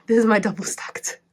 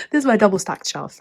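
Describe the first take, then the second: First: Laughing. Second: Said in the usual way. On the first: Real, not acted. Laughs while showing shelf.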